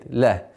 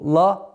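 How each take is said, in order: First: The l sound is soft and light. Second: The l sound is hard and velarized. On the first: The speaker calls it right. "все предыдущие звуки мягкие" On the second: The speaker calls it wrong. "Нет"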